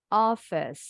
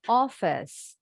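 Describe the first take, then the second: Both takes have the same delivery.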